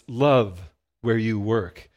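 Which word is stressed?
Love. The stress is on the word love.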